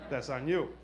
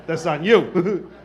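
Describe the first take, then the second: First: Much softer throwaway repeat; muttered aside. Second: Slow, louder, laughing through the words; laughing retort. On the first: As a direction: drop it under your breath. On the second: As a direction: lean into it, cracking up. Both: Shown as a demonstration.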